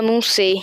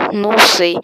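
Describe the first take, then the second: First: Said in the usual way. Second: Loud, sudden yell; shout on request. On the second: Shown as a demonstration. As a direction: yell it out for the chat. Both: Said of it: "Grita, não sei".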